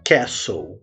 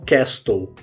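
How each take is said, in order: First: The middle t is silent. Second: The middle t is pronounced. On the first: The speaker calls it right. "a pronúncia correta dessa palavra é castle" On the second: The speaker calls it wrong. "E não castle, como muitas vezes a gente acaba pronunciando"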